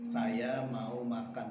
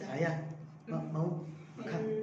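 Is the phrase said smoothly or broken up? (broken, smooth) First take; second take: smooth; broken. First: The whole phrase is said in one breath. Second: The phrase breaks off and restarts mid-word. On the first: "itu satu napas" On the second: "itu namanya eh, tidak satu napas"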